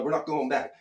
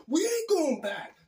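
First: Said in the usual way. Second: High, slow imitation of a defiant friend; mock movie-style refusal. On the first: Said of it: "It was just like that". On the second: Friend refusing to go back for the shoe, high drawn-out mock defiance. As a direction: stretch it out high, like the film scene. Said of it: "Dude, it was like that".

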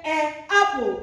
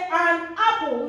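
First: "an apple" with the n dropped, a bare "ay" before apple; wrong article. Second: "an apple" with a clear n in an; correct article. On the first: Teacher showing learners the wrong form, wrong article. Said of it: "We don't say". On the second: Teacher showing learners what we say, correct article. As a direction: sound the n of "an" before apple. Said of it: "so we say". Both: Shown as a demonstration.

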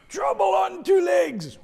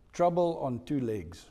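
First: High, loud shout with "two" punched; preacher shouting Peter's nickname, loud and high. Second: Said in the usual way. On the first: Shown as a demonstration. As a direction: yell it out.

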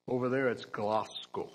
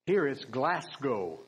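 First: Glasgow with a hard k sound and a broad ah, like Klahsgow; Scottish Glasgow. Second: Glasgow said with a flat American a, Glas like glass. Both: Shown as a demonstration.

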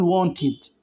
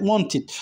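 First: Wanted said slowly, ending clearly as id; slow down and land the final id in wanted; pronunciation demo. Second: Wanted said with a clear extra syllable, ending id; careful pronunciation. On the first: Teacher showing students wanted ends in id, slow. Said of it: "ال إي دي كأني بنطق آي دي". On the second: Teacher pointing out how to say wanted, ending id. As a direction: stress the -ed in wanted as a full id sound. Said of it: "خلي بالك". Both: Shown as a demonstration.

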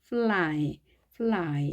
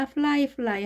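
First: Fly drawn out, tongue pressed to the palate for L; tongue-touch L. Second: Fly as Korean-accented 플라이, L and R alike; undifferentiated pronunciation. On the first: Teacher models fly for learners, precise L. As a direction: say fly with a clear, held English L. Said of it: "입천장에 완전히 붙여서 발음하는". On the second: Teacher warns against saying both words alike, Koreanized fly. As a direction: say fly flatly Koreanized, the same both times. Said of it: "하면 안 되겠습니다". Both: Shown as a demonstration.

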